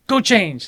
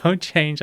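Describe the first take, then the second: First: "Go change." snapped high and firm; mock command. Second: Said in the usual way. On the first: Sensei ordering late student, a hint of stern command. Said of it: "he's like". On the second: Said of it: "So I, like".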